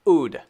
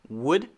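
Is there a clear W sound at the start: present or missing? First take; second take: missing; present. First: The word starts without the W sound. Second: The word starts with a lip-rounded W sound. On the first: The speaker calls it wrong. "the second one is wrong" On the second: The speaker calls it right. "the first one is right"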